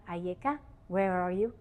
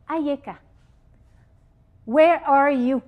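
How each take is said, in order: First: Soft asking. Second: Calling out. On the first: God asks Adam quietly. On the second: God calls out to Adam. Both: Acted.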